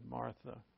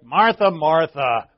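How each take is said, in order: First: It is said in a gentle, caring tone. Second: It is said in a harsh, uncaring tone.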